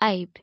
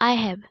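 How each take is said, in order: First: The words are joined into one short syllable. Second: Both words are said separately in full.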